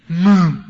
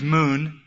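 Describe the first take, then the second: First: Put-on "Moon" blurted loud, like a toddler; toddler's mispronunciation. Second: Said in the usual way. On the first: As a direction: imitate a small child's unclear "Moon", punched out. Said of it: "He can't talk or, uh, enunciate". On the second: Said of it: "means moon".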